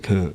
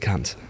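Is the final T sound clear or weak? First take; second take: weak; clear. First: The final T is weak and barely heard. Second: The final T is crisp and clearly released. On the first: This is how Americans say it. The speaker calls it wrong. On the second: This is how Australians say it. The speaker calls it right. "You don't enunciate the T properly"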